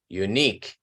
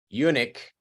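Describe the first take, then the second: First: The stress is on the second syllable. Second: The stress is on the first syllable. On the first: It means one of a kind. The speaker calls it right. "You need to stress the second syllable" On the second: It means a castrated man. The speaker calls it wrong. "If you stress the first syllable, eunuch is eunuco"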